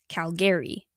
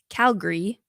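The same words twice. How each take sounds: First: The word is said fully, every syllable as spelled. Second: The word is said in a shortened, reduced way. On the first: "it's pronounced as it's written" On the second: "The husband said it's pronounced"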